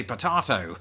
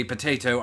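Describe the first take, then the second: First: POTATO as "po-TAH-to"; song's odd potato. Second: POTATO as "po-TAY-to"; usual potato. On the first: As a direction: say POTATO with an absurd long AH. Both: Shown as a demonstration. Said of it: "the second part where it says".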